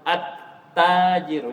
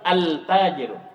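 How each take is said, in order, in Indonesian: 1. L-nya tidak terdengar; T-nya dibaca ganda. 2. L-nya terdengar jelas sebelum T. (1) "Jadi tidak dibaca lamnya lagi" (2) "jangan bilang al-tajiru"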